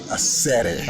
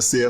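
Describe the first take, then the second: First: The name is said ending in a 'set-ay' sound. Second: The name is said ending in a 'seer' sound. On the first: This is the name's original pronunciation. The speaker calls it right. "but it's actually a Sete" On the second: This is how the customers call it. The speaker calls it wrong. "come down to a seer lounge"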